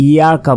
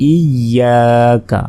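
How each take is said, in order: First: ইয়াকা said quickly with a single short y; ইয়াকা as a common learner's slip, undoubled y; mispronunciation demo. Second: ইয়াকা slow, with doubled y and long aa; ইয়াকা drawn out with a held y; correct tajweed demo. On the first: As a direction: rush ইয়াকা without doubling the y. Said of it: "এটা কিন্তু ভুল". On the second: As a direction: lean on the double y in ইয়াকা, then stretch the aa. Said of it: "বলতে হবে ইয়াকা". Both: Shown as a demonstration.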